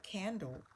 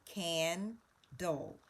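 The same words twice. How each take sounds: First: Said in the usual way. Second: CANDLE broken into CAN, then DOLE; split into syllables. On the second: Shown as a demonstration. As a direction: sound out CANDLE slowly with a gap before the second syllable. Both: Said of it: "we can hear that easily".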